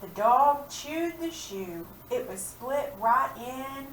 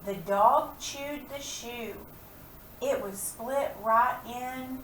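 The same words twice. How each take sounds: First: Slow reading, dog stressed, a touch higher; teacher rereads the rhyme line slowly; slow read-aloud. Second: Slow reading, dog stressed; teacher reads the rhyme line slowly; slow read-aloud. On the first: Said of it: "look at this page". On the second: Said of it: "write a rhyming word". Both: Shown as a demonstration.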